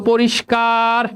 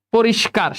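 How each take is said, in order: First: পরিষ্কার with a long, held last syllable; drawn-out prompt. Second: Said in the usual way. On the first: Shown as a demonstration. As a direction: stretch the "kaar" of পরিষ্কার. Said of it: "তাহলে কি হয়ে যাবে বলো". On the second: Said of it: "শেষ".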